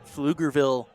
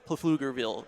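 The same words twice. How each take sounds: First: The P at the start is silent. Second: The P at the start is pronounced. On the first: "I'm not sure if that P is silent" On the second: "Otherwise, you try to say Pflugerville"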